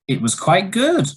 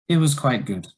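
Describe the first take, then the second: First: The voice rises in pitch across the phrase. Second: The voice falls in pitch across the phrase. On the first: The speaker is surprised. "it was a rising intonation and it shows surprise" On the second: There is no enthusiasm and something may be wrong. "that was a falling intonation"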